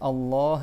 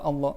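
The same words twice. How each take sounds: First: It is said with a classical Arabic accent. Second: It is said with a Levantine accent. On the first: The speaker calls it right. "il y a deux L et tu prolonges le, ha, le A et après il y a un Ha à la fin" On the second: The speaker calls it wrong. "comme ils disent euh, au, au Liban"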